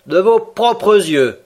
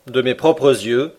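First: Slow, higher disbelieving question; "De vos propres yeux" said slowly and higher, doubting; incredulous. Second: Said in the usual way. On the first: A narrator's reading. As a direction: drag it out as if you can't believe it. Ned doubts Conseil's story.

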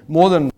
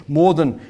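The two takes are said the same way.

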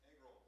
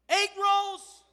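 First: Said in the usual way. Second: "Egg rolls" said much louder and higher; loud comic afterthought "Egg rolls"; egg rolls blurted. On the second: Shown as a demonstration. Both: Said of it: "I wasn't even gonna say that".

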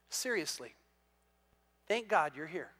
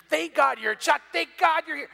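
First: Mean every word this time; sincere. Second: High, loud joking thanks; joking exclamation. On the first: Golfer quietly and sincerely thanks the pastor for being there. Golfer stops laughing, turns serious. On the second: Golfer jokingly thanks the pastor for vouching his shot. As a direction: ham up the thanks for the laugh. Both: Retold or imitated.

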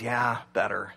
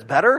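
First: Low, softer relieved answer; a hint of a calmed-down guy; lightly voiced guy. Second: "Better?" louder with a rising question tune; "Better?" as a quick rising question; questioning girlfriend. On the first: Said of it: "the guy goes". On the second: Retold or imitated. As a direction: check on him with a lifted "Better?". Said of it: "the girlfriend says".

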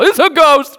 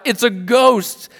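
First: "It's a ghost," yelled high and loud in panic; terrified shout. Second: "It's a ghost!" read out higher and slowly, a mild frightened cry; read cry of fear. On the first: Retold or imitated. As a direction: scream it like you just saw a phantom. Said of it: "You might cry out as well". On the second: A narrator's reading. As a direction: voice the disciples' fear lightly while reading. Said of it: "they were terrified and cried out".

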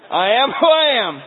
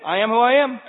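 First: High, even louder, final and immovable; stubborn grandma, louder. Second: High, loud, digging in her heels; stubborn grandma refrain. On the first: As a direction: slam it down like a closed door. Grandma's refrain repeated louder. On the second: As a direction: plant your feet and refuse to budge. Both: Retold or imitated.

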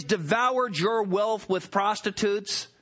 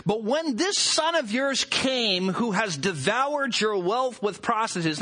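First: "devoured" leaned on, the phrase slowed; slow down and hit "devoured"; stress on devoured. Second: Said in the usual way. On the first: Shown as a demonstration. Preacher pointing the congregation to the phrase, stressing "devoured". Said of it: "Did you notice the phrase". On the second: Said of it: "notice that the prodigal says".

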